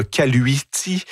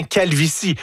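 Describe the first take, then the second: First: "caluiti" with the V sounded as a U; Latin pronunciation. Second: Said in the usual way. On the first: Shown as a demonstration. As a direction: say "caluiti" Latin-style, U in place of V. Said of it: "le V devient un U". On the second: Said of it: "Donc français, latin, c'est exactement le même mot".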